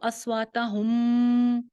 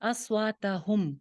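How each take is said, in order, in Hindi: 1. आख़िरी m की आवाज़ लंबी खींची जाती है। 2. आख़िरी m की आवाज़ छोटी काट दी जाती है। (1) "अस्वाता हम करेंगे तो ये गलत है, आवाज को नहीं चलाना।" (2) "बस।"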